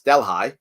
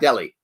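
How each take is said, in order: First: It uses the local upstate New York pronunciation. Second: It uses the usual, non-local pronunciation. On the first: The speaker calls it right. "It's Delhi" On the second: The speaker calls it wrong. "Delhi is not Delhi"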